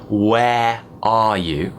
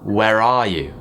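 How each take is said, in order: First: The words are said with no linking R sound. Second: An R sound links the first word to the next. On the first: "instead of saying" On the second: "I will link with an R"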